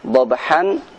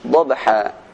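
First: The word ends with an 'n' sound. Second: The word ends with a long 'a' vowel.

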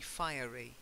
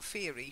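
First: The first part sounds like the word 'fire'. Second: The first part does not sound like 'fire'. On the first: The speaker calls it right. "Because it's fire. ... So it's like fire" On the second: The speaker calls it wrong. "Not fiery"

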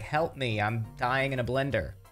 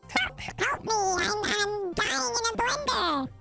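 First: It is said in his normal voice. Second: It is said in a high chipmunk voice.

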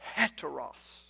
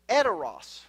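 First: The word begins with an audible breathy H. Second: The word begins directly with a vowel sound. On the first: The speaker calls it right. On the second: The speaker calls it wrong.

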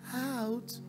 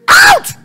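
First: The word is said softly and weakly. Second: The word is shouted loudly.

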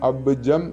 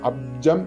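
First: The b sound is clearly and fully heard. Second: The b sound is weak and barely heard. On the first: This is the way it should be chanted. "ബ് എന്നുള്ളത് കേൾക്കണം" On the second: This is the everyday way of saying it. "അബ്ജം എന്നാണ് നമ്മൾ മലയാളത്തിൽ ഉച്ചരിക്കാറുള്ളത്"

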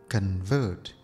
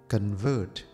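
No difference in how they are said.

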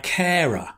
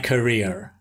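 First: The word sounds like 'carer'. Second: The word sounds like 'career'. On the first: The speaker calls it wrong. "but with a mistake. ... it tells me I got carer, ... I mispronounced it" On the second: The speaker calls it right. "Yay, much better"

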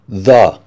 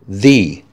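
First: The vowel is short and weak, like 'thuh'. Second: The vowel is long and clear, like 'thee'. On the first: A consonant sound follows. "Before a consonant sound" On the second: A vowel sound follows. "Before a vowel sound"

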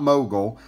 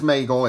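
First: The name begins with a 'moe' sound. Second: The name begins with a 'may' sound. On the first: The speaker calls it wrong. "It's not Mogul" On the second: The speaker calls it right. "the correct pronunciation is Maigle"

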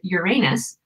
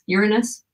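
First: The word is not said like urine plus us. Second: The word is said like urine plus us. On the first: This is how most people say it. "most people say it Uranus" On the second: This is how astronomers say it. "So like urine and then us"

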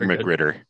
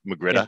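First: The final r sound is pronounced. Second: The final r sound is dropped. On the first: "I think Magritter is fine" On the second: "they don't really pronounce R's at the end of words"

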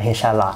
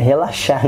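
First: The word is garbled as re-char lá. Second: The word is said fully as re-la-xar. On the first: The speaker calls it wrong. "não é rechar lá" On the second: The speaker calls it right. "É relaxar"

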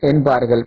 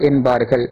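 Both takes have the same delivery.

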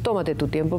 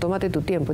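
First: The stress falls on the first syllable of tomate. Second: The stress falls on the second syllable of tomate. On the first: "pues es esdrújula" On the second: "como dicen los argentinos"

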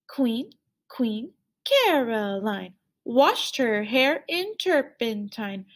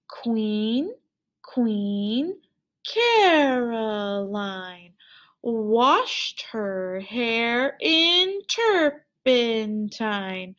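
First: The words are spoken at a medium pace. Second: The words are spoken at a slow pace. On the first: "Let's speak at a medium speed" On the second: "Let's speak Queen Caroline at a slow speed"

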